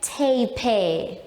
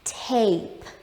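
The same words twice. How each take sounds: First: The final e is sounded out. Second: The final e makes no sound. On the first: The speaker calls it wrong. "We don't say tape. No, that one is something we don't do" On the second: The speaker calls it right. "So we say t, a, p, tape"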